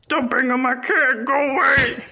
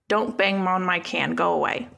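First: It is said in an Oscar the Grouch voice. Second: It is said in the speaker's normal voice.

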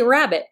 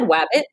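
First: The word begins with an R sound. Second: The word begins with a W sound. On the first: The speaker calls it right. "Say rabbit" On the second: The speaker calls it wrong. "There is a clear substitution of a W for an R"

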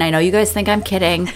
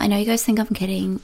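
First: The impression is a more butch voice. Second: The impression is a more girly voice.

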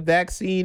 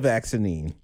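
First: The word is said with its normal two syllables. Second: The word is said with an extra syllable added. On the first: The speaker calls it right. "You said it right today. You said vaccine" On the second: The speaker calls it wrong. "All that extra, all the extra letters and syllables"

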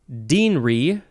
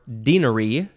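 First: The word is said with two syllables. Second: The word is said with three syllables. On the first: "2 syllables" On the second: "3 syllables"

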